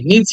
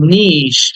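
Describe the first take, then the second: First: The word does not end in a sh sound. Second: The word is drawn out, ending in a sh sound. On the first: The speaker calls it wrong. "আমরা এটাকে নিচি বলি" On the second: The speaker calls it right. "ইটাকে টেনে বলতে হবে, লাস্টে একটা স sound"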